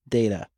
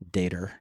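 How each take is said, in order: First: It ends in a plain vowel, no r. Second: It ends with an added r-sound, like Guy.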